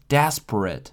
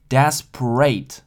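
First: The final syllable sounds like 'it'. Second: The final syllable sounds like 'ate'. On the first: The speaker calls it right. "而是desperate" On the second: The speaker calls it wrong. "所以不是desperate"

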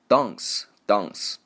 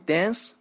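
First: It is said with a British accent. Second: It is said with an American accent.

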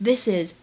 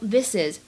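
First: The two words are linked together. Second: The two words are linked together.

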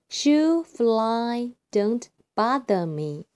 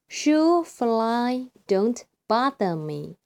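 Both takes have the same delivery.

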